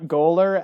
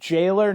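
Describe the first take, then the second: First: The word begins with a hard G sound. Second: The word begins with a J sound. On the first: The speaker calls it wrong. "not goaler" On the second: The speaker calls it right. "which we established is pronounced jailer"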